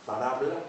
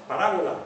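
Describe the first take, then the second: First: "Parábola" squeezed to pa-RA-bla; "Parábola" as three syllables, lower, pa-RA-bla; syncopated form. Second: "Parábola" in four syllables, pa-RÁ-bo-la; louder, complete "Parábola" with falling end; full original form. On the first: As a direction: drop the o in "Parábola", end rising. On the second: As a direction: sound out every vowel of "Parábola". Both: Shown as a demonstration. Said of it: "Es una metátesis".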